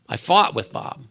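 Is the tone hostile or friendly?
hostile. It sounds hostile, like fighting against Bob.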